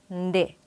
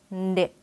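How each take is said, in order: Both takes have the same delivery.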